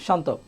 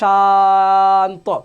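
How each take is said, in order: First: The vowel is kept short and normal. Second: The vowel is stretched out long. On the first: The speaker calls it right. "Normally এভাবে বলতে হবে" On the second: The speaker calls it wrong. "এখন যদি কেউ এভাবে বলে শান্ত, শুনতে কেমন শোনা যাবে? অসুন্দর শোনা যাবে না?"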